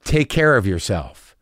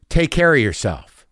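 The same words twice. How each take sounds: First: Low, slow send-off; loaded tone. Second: Slow, drawn-out send-off; loaded tone. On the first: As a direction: draw it out low, like veiled bad news. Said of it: "Did you hear my tone just then?". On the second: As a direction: stretch out the farewell as if it means something. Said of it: "Like that". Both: Retold or imitated.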